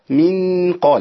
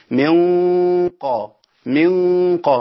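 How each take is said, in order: First: من قا with the nun not hidden properly; wrong pronunciation. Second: من قا with the nun hidden in a heavy nasal; correct nasal hiding. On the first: Teacher showing students the wrong من قا. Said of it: "ما أقولش من قا". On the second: Teacher showing students the hidden nun in من قا. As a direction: hide the nun of من into قا. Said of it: "أقول إيه". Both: Shown as a demonstration.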